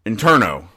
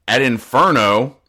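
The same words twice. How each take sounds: First: Interno said with a t, in-TER-no; carefully corrects himself to Interno; corrected name. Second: Inferno said with an f, like hell; misread name. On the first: Fixing his slip for viewers, says Interno with a t. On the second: Reading the comic aloud, slips and says Inferno. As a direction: reads the prison's name as Inferno by mistake. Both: Real, not acted. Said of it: "not Inferno".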